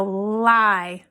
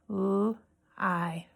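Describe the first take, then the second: First: Said in the usual way. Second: L-I as a soft "lll", pause, then "eye"; sounded out. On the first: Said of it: "I'm gonna say a word". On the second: Shown as a demonstration. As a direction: tap out L-I in two separate sounds, "l... eye". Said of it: "we're gonna tap out the sounds".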